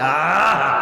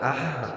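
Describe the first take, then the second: First: It is said loudly and forcefully. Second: It is said softly and quietly. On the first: "আরেকবার আমি জোরে দিচ্ছি" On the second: "আমি আস্তে দিলাম"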